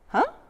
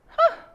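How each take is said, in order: First: The 'huh' sounds puzzled and confused. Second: The 'huh' sounds calm and neutral. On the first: The speaker does not understand something. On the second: The speaker stays curious without judging.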